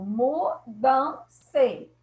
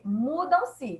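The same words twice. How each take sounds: First: "mudam-se" split into mu, dam, se; each syllable of "mudam-se" set apart. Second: Said in the usual way. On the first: Shown as a demonstration. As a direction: say "mudam-se" slowly, pausing after each syllable. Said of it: "Já foi separado por hífen". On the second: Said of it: "De novo".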